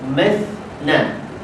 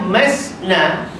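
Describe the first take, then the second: First: The consonant is a 'th' sound between the teeth. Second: The consonant is a hissing 's' sound. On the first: The speaker calls it right. "Patut mas ujung lidah kena dengan hujung gigi kapak sebelah luar" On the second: The speaker calls it wrong. "ujung ujung lidah tak kena ujung gigi kapak, dia pergi ke langit-langit keras"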